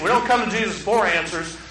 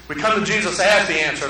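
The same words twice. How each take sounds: First: For answers leaned on as the wrong idea; stress on for answers. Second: As punched hard, the answer landing; stress on as. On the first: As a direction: set up the contrast on for answers. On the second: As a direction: hit the word as against for. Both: Shown as a demonstration.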